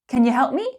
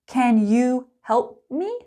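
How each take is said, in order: First: It is spoken fast with 'you' reduced to ya. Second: It is spoken slowly with a full 'you'. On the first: "Fast and natural" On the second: "Slow and clear"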